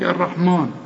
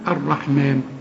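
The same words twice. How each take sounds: First: The m syllable is heavy and thick. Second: The m syllable is light and thin. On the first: The speaker calls it wrong. "لكن في ناس كتير بقى تيجي تقول لك الرحمن، مان، مان ايه" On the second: The speaker calls it right. "كل ميم في القرآن مفتوحة مضمومة مكسورة مرققة، هنقول الرحمن"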